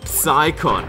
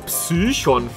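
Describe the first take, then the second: First: The name is pronounced the English way. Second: The name is pronounced the German way. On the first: "ich bleibe bei der englischen Bezeichnung" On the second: "von mir aus auf Deutsch ausgesprochen"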